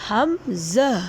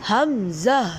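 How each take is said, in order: No difference in how they are said.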